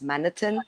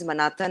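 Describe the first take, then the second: First: The name is said with a non-Indian pronunciation. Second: The name is said with an Indian pronunciation. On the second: "In an Indian way"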